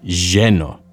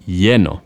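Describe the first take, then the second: First: The double L is said the Argentine way. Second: The double L is said the Barcelona way. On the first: "In a place like Argentina, they would say lleno" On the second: "The people in Barcelona would say lleno"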